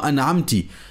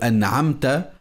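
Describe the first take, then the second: First: The word ends with an i vowel. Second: The word ends with an a vowel. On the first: The speaker calls it wrong. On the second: The speaker calls it right.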